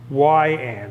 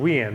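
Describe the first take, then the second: First: The first syllable sounds like 'why'. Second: The first syllable sounds like 'we'. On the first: The speaker calls it right. "Say Y and" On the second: The speaker calls it wrong. "I always thought it was we and"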